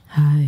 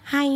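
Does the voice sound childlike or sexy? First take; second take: sexy; childlike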